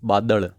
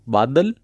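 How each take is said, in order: First: The final consonant is a retroflex l. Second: The final consonant is a plain l. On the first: "ळ की तरह" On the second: "ल का उच्चारण"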